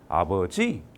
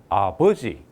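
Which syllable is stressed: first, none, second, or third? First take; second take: third; second. First: The stress is on the third syllable. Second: The stress is on the second syllable. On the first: "세 번째 줄게요" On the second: "두 번째 줬습니다. 강세를"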